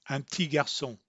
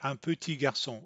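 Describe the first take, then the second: First: The p of petit is dropped. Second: The p of petit is clearly pronounced. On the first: The speaker calls it right. "They'll often say ti" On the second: The speaker calls it wrong. "They're not going to say un petit garçon or rarely"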